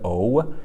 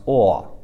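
First: "O" as oh, lips rounding at the end; English O. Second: "o" as open aw, louder, no rounding; pinyin O. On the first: Teacher showing what to avoid, "O" as rounded English oh. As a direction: glide "O" into a puckered finish. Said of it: "you kind of feel your lips pucker". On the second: Teacher correcting the English sound, "o" as open aw. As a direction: keep the mouth open through "o", like aw. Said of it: "mouth kind of stays open". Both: Shown as a demonstration.

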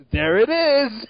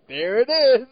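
First: Mock drunken exclaim. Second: Put-on raised, louder drunken "There it is!" again; same tipsy blurt; mock drunken exclaim. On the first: Retelling Gary Chalk's Cool Cat moment, mock drunken exclaim. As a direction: blurt it like a tipsy cameo. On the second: Comparing delivery to Erik Estrada's, mock drunken exclaim. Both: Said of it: "exactly the same delivery".

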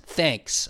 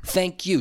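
First: Single clipped-off word "Thanks", falling; imitated curt thanks. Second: "thank you" with "you" clearly sounded, falling; full "thank you". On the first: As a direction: act out a dismissive one-word "Thanks". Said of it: "She says". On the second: Shown as a demonstration. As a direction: say both words fully, "thank" and "you". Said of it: "We need the full you".

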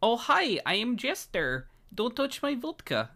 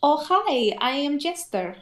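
First: Very high attempted Eastern European accent; Jester. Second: Put-on high Eastern European accent; Jester. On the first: Copying the co-host's demo, high attempted Eastern European accent. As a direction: copy a high Russian-style accent, not quite landing it. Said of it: "I wanna try to see if I could do it". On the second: Demonstrating the accent on request for co-host, high Eastern European accent. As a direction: pitch it up in a Russian-style accent. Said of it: "what was that Jester one again".

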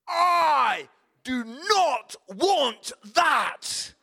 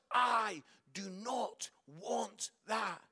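First: Loud, very slow, each word punched; bratty child tantrum. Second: Very slow, word by word; measured, deliberate quote. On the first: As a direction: mimic a wailing child refusing a gift. Little boy rejecting his present, acted. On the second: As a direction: repeat it slowly without the shouting. Words repeated for reflection. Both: Retold or imitated.

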